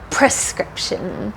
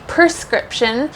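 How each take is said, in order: First: The R follows the P directly. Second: The R does not follow the P directly. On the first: The speaker calls it right. "the correct pronunciation should be that R at the beginning" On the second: The speaker calls it wrong. "If you say prescription, they will still understand you"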